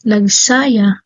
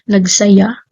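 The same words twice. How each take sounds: First: The stress falls on the middle syllable. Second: The stress falls on the last syllable. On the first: The residents wore skirts. The speaker calls it wrong. "Yung mali" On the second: The residents rejoiced. The speaker calls it right. "kung gagamitin ko ang wastong pagbigkas at diin, magiging tama siya"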